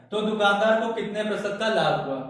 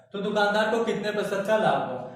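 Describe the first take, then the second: Both takes have the same delivery.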